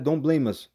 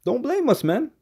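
First: Said in the usual way. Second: "don't blame us" with its pitch jumping far higher on "blame"; high warning. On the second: Shown as a demonstration. Preacher warns the crowd about a windshield, voice leaping high. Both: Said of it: "warning repeated to scoffers".

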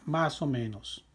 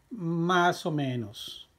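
First: Said in the usual way. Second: Drawn out for learners; slow model reading. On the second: Shown as a demonstration. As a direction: stretch each word for the class. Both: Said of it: "teacher models the answer".

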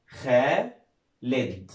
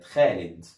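First: خالد stretched slowly into خا and لد; syllable by syllable. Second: Said in the usual way. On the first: Shown as a demonstration. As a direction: sound out خالد in two long, separate pieces. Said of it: "نشبكهم كلهم مع بعض". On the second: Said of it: "اسم ولد خالد".

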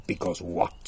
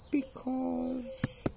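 First: Low lion voice; demanding lion. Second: Very high, drawn-out mouse squeak; stalling mouse. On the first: Lion questioning the stalling mouse, low demand. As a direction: press for the answer, low. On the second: Mouse stalling the hungry lion, high hesitant squeak. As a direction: hold the word high while thinking. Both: Acted.

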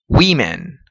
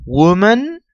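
First: WOMEN said "WI-men", low and falling; plural pronunciation. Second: WOMAN said "WU-man", rising at the end; singular pronunciation. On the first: Teacher shows students the plural, WOMEN pronounced "WI-men". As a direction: model WOMEN with "wi" in the first syllable. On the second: Teacher shows students the singular, WOMAN pronounced "WU-man". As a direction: model WOMAN with a rounded "wu", pitched up. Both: Shown as a demonstration. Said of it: "Escucha con mucha atención la pronunciación".

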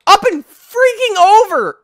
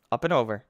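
First: Very high, loud, drawn-out yell; exasperated shout. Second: Said in the usual way. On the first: Real, not acted. Player failing the jump, shouting in exasperation. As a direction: yell it slowly in total frustration.

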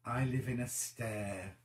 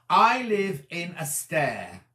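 First: Softer, slower mulling over I live in a stair; quiet puzzled repeat. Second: Slow puzzled reading. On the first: Rereading the viewer comment to herself, quiet and puzzled. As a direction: murmur the phrase again to yourself, puzzled. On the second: Reading a puzzling viewer comment to the camera, slow and deliberate. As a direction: slowly sound out I live in a stair, stressing I. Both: Shown as a demonstration. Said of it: "Wonder what that's meant to say".

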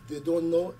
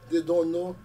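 No difference in how they are said.

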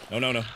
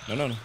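No difference in how they are said.

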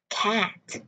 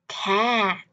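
First: Said in the usual way. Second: Word stretched, ending sounded; slow demonstration. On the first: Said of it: "một lần với tốc độ bình thường". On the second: Shown as a demonstration. Teacher models the word for learners, slow with audible ending. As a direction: draw out the vowel, then release the t. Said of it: "hai lần chậm hơn".

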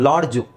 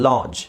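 First: ಲಾಡ್ಜು with an audible d and final u; D pronounced. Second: ಲಾಡ್ಜ್ said as laaj, no d or final u; silent D. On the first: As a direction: say ಲಾಡ್ಜು as laad-ju. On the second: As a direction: drop the d in ಲಾಡ್ಜ್, ending on j. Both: Shown as a demonstration. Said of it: "ಡಿ silent ಮಾಡ್ಬೇಕು".

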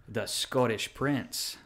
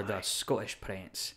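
First: Said in the usual way. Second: Slow Scottish accent, double T swallowed. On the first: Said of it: "So instead of [name]". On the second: Shown as a demonstration. Wrestler shows his character's name, Scottish accent. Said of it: "Scottish accent for my professional wrestling character".

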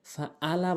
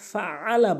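First: "ফাআলা" with a plain glottal hamza; hamza for ain. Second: "ফাআলা" with ain squeezed in mid-throat; slow "ফাআলা", pressing the ain from the throat. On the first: Teacher warning learners, "ফাআলা" with hamza replacing ain. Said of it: "ফাআলা বলা যাবে না". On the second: Teacher correcting learners, "ফাআলা" with a true throat ain. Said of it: "ফাআলা বলতে হবে". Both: Shown as a demonstration.

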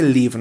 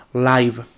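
First: "live" with a short i, like "liv"; mistaken pronunciation. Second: "Live" with a long i, like "laiv"; corrected pronunciation. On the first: Teacher quotes her slip to students, "live" as "liv". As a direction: say "live" to rhyme with "give". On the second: Teacher corrects her reading for students, "Live" as "laiv". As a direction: say "Live" to rhyme with "five". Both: Shown as a demonstration. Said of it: "me equivoqué con la pronunciación".

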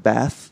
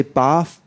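First: BATH with a short, front "a" as in cat; flat-A BATH, asked as a question; American bath. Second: BATH with a long, open "ah"; broad-A BATH; British bath. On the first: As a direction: say BATH with the vowel of "pat". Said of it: "instead of bath". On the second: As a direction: say BATH as "bahth". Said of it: "do you say bath instead of bath". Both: Shown as a demonstration.

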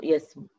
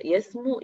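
First: يسمو cut to a short final u, falling; shortened final vowel. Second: يسمو with a long final oo, rising higher; full final vowel. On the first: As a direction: drop the long oo of يسمو to a brief damma. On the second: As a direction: lift and lengthen the oo of يسمو. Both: Shown as a demonstration. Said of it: "إحنا حذفنا حرف العلة".

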